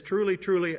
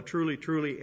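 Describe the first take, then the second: First: "Truly, truly" pitched up and louder; special emphasis. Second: Said in the usual way. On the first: Acted. Preacher quotes Jesus opening a solemn statement, "Truly, truly" with special emphasis. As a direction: punch both words of "Truly, truly" for weight. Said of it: "emphasis for special emphasis".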